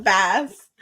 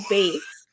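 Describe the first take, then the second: First: "bass" with a short A; "bass" pronounced as the fish, not the music. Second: "bass" said like base; "bass" rhyming with face; standard pronunciation. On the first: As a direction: say "bass" to rhyme with mass. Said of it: "like the fish". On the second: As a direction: say "bass" with a long A. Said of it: "words I just never get right". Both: Shown as a demonstration.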